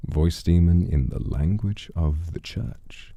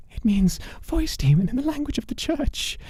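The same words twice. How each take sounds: First: Slow, thoughtful repeat; slow musing repeat. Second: Much higher, eager voice; eager bargaining man. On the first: Real, not acted. Narrator repeats the name's meaning slowly, musing. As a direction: savour the words slowly. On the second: Acted. Man offers the demon titles and an ally, high and eager.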